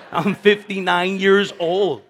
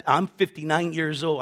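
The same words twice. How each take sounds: First: Louder, slow, leaning on years; emphatic insistence. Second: Said in the usual way. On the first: Shown as a demonstration. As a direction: spell it out to a doubting crowd. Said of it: "No, but I am fifty-nine". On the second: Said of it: "I know you're shocked".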